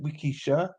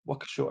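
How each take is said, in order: First: The first syllable is said as 'wee'. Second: The first syllable is said as 'wa'. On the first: The speaker calls it right. "That's better, isn't it? ... say we" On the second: The speaker calls it wrong. "So don't say wa"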